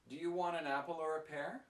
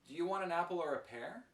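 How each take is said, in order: No difference in how they are said.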